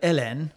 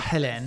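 First: The name starts without an H sound. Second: The name starts with an H sound.

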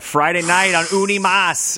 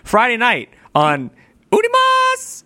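First: It is said in a plain, low-key way. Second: It is said in a loud, showy announcer style. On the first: "I didn't do my normal thing" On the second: "That's what I normally do"

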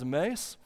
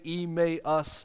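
First: The syllables are slurred together in a drawl. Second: The three syllables are said clearly and separately. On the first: "if you slur it together with your bad Oklahoma" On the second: "it's like E-May-Us, like the month of May"

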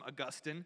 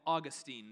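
First: The name is said in the non-American way. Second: The name is said in the American way. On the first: "the rest of the world often calls him Augustine" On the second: "With our American accents, we call him Augustine these days"

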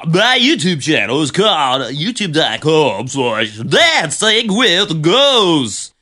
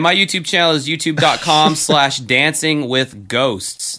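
First: The speaker sounds lively and enthusiastic. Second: The speaker sounds bored and flat.

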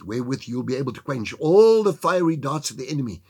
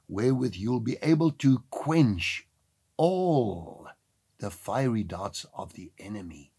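First: The sentence is spoken at a normal pace. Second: The sentence is spoken at a slower pace.

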